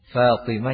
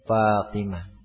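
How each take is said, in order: First: The word begins with an f sound. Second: The word begins with a p sound. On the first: The speaker calls it right. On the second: The speaker calls it wrong.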